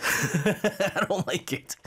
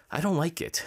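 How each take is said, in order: First: Drawn-out and higher, laughing through it. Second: Said in the usual way. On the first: Real, not acted. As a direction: repeat it slowly, laughing at yourself. Says it, then repeats laughing.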